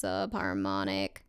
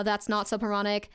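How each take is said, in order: First: Ultra low slow rumble; subharmonic voice. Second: Said in the usual way. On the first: Shown as a demonstration. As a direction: drop into subharmonic growl. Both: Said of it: "that's subharmonic".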